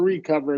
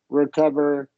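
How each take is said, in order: First: The first vowel is a long E sound. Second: The first vowel is short and reduced.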